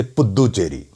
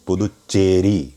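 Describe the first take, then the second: First: Puducherry with a doubled d and a single ch, puddu-cheri; wrong Puducherry. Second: Slow Puducherry with a clearly doubled ch. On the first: Teacher mimicking the common wrong Puducherry. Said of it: "The ch becomes single, but the the becomes double, which is wrong". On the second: Teacher slowly modelling the doubling in Puducherry. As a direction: stretch out Puducherry and hold the doubled ch. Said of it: "there is a doubling that happens". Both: Shown as a demonstration.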